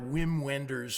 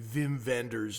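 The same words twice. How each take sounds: First: The name is pronounced the English way. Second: The name is pronounced the German way.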